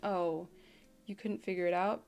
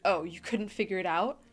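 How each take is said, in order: First: It is said in a pitying, sympathetic tone. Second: It is said in a short, forceful tone.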